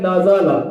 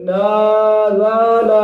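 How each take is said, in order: First: नाजाला said short and even, no stretch or jerk; correct reading. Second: नाजाला sung with every vowel stretched long; wrong drawn-out reading. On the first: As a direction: read नाजाला crisply with short vowels. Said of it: "ये है सही।". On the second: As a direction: drag out नाजाला like a slow chant. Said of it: "इस तरह गलत है।". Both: Shown as a demonstration.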